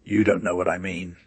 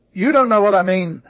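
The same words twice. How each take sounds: First: Said in the usual way. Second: Put-on "You don't know what I mean" in a much higher, louder, odd foreign-sounding accent; strange new accent. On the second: A narrator's reading. Blewett mocks his cheating partner in an odd accent. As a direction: twist the line into an accent never heard before. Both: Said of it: "in an accent such as I never before heard".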